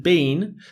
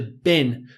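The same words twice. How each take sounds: First: The vowel is long, like in 'bean'. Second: The vowel is short, like in 'bin'. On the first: "shorten been to been" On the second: "shorten been to been"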